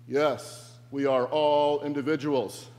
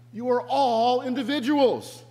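First: Loud mock group chant at normal pitch; crowd responding together. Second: High, loud, insistent shout; Brian yelling to mob. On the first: The mob answers Brian all together, chanting loudly. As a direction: answer as an obedient mob in one voice. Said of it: "they all respond together". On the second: Acted. Reluctant messiah to the mob following him, yelling. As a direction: call it out high over the crowd. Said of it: "he yells to them".

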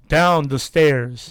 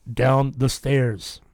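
First: Slow, firmer machine voice; insistent, drawn-out spirit-box command; angrier voice box. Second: Slow, drawn-out machine voice; stretched, measured spirit-box message. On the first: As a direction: drag out each word with more force. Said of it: "Like angry and angry every time". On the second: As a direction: intone it slowly like a ghostly voice box. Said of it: "the machine goes". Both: Retold or imitated.

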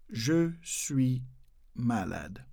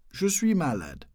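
First: "Je suis malade" slowly, pausing between words; soft, spaced-out "Je", "suis", "malade". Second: Said in the usual way. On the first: Shown as a demonstration. Teacher breaking down the French phrase for learners. Slow broken-down repeat for learners.

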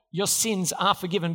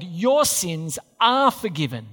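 First: Said in the usual way. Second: "Your sins are forgiven" slow, each word weighted; slow solemn verdict. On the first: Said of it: "You can know the future verdict today". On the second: Shown as a demonstration. Preacher declares Jesus' verdict to the paralytic, slow and solemn. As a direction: pronounce it like a verdict. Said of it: "the verdict of Judgment Day".

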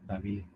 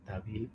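Both takes have the same delivery.

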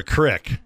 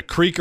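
First: "crick" with a short i; short-i creek. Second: "creek" with a long ee. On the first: Host countering with his own question, "crick" with short i. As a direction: say "crick" to rhyme with brick. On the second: Host countering with his own question, "creek" with long ee. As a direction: say "creek" to rhyme with seek. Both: Shown as a demonstration. Asks which of two pronunciations.

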